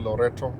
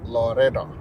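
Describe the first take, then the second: First: The middle consonant is a clear t. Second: The middle consonant is a soft d. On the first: The speaker calls it wrong. "Loreto ipronounsiwi Loreto" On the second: The speaker calls it right. "Ile American accent unaipronounce Loreda"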